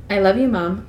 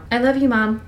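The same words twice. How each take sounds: First: Said in the usual way. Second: Thick voice. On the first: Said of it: "Say it now". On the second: Acted. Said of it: "My voice was thick".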